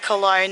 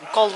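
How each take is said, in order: First: The name is said the English way. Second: The name is said the German way. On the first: "the people from Cologne don't pronounce the city Cologne" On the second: "They pronounce it Cologne"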